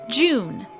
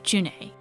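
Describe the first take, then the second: First: The name sounds like the word 'June'. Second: The name sounds like 'Janae'. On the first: This is the common fan pronunciation. "people have pronounced this name as June" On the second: This is the pronunciation given in the official guide. "a little pronunciation guide that is actually Janae"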